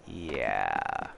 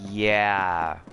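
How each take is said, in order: First: Much lower, softer, falling; deflated low yeah. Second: Said in the usual way. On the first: Real, not acted. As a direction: drop it low and flat, deflated.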